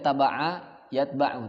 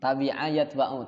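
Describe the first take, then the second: First: The first word has 'a' as its middle vowel. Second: The first word has 'i' as its middle vowel. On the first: The speaker calls it wrong. "tidak ada taba'a yatba'u" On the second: The speaker calls it right. "tapi adanya tabi'a"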